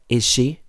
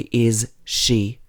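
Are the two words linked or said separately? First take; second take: linked; separate. First: The words join with the shared sound said once. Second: Both words are said separately, each sound clear. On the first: The speaker calls it right. "it's is she? ... like I S H E as one word" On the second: The speaker calls it wrong. "We don't say is she"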